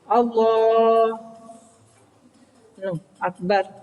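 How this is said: A long pause separates the two words. The speaker calls it wrong. "tidak boleh suwe-suwe mandek"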